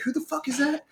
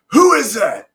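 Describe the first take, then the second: First: High, held-back mock yell; retold angry challenge. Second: High, loud mock bullhorn shout; bullhorn challenge. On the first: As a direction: imitate an instructor's shout, pitched up but soft. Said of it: "pent up anger. And you were like". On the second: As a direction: call it out like an instructor on a bullhorn. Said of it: "comes up on a Zodiac with a bullhorn".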